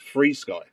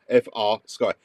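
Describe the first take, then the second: First: The first part is said as one word. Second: The first part is spelled as separate letters. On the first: "you're saying it's Free Sky" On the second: "I've already read it as F R Sky"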